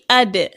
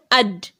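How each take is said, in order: First: The d sound ends with a slight echoing bounce. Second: The d sound stops flat with no echo. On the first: The speaker calls it right. "You see, ad" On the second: The speaker calls it wrong. "not ad"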